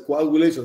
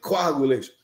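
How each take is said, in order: First: The word is pronounced with an English accent. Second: The word is pronounced with a German accent. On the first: "They don't say coagulation" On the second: "they say coagulation"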